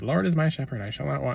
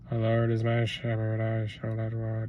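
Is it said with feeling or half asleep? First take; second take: with feeling; half asleep. First: It is said with heartfelt feeling. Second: It is said flatly, half asleep.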